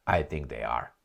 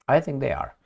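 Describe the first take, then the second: First: Said in the usual way. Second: Higher and louder, pushing the claim; I think they are, lifted and punched; emphatic repeat. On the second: Shown as a demonstration. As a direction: insist on it the second time round. Second take pushed harder.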